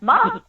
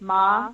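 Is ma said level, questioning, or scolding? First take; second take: questioning; level. First: The pitch moves, sounding like a question. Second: The pitch stays level and even. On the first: It asks a question. "ma is a question" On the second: It means mother. "if I say ma evenly, that's like mother"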